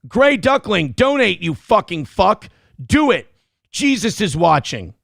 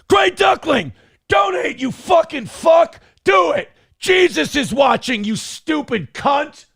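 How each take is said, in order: First: It is read in his normal voice. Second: It is said in an Aaron Crash Out voice.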